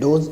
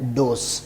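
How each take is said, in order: First: The word ends with a z sound. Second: The word ends with an s sound. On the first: The speaker calls it wrong. "बोलने में हम इसको जिसे बोलते हैं डोज ये गलत है" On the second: The speaker calls it right. "सही इसका है डोस"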